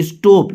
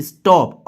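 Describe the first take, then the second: First: स्टॉप with the vowel rounded to "oh"; mispronounced stop. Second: स्टॉप with an open "aw" vowel; correct "stop". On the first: Teacher showing what not to say, "oh" vowel in स्टॉप. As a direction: say स्टॉप as "stope", long closed o. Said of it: "इसको ओ नहीं कहेंगे". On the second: Teacher correcting for students, open "aw" in स्टॉप. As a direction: say स्टॉप as "istawp", falling. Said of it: "अ आ जाएगा". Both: Shown as a demonstration.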